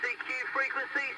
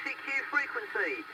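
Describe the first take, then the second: No difference in how they are said.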